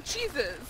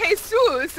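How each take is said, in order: First: Jesus echoed with a CH-like start; imitated English pronunciation. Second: Jesus with an H sound at the start; Jesus as hay-SOOS; Spanish pronunciation. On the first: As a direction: say Jesus as CHEE-zus. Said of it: "trying to say it in English". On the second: Shown as a demonstration. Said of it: "Mexican. Yeah, no, that's Jesus".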